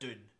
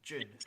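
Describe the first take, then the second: First: The word starts with a plain d sound. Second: The word starts with a j sound. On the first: "the Americans would pronounce that Dune" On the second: "in Britain, that's pronounced June"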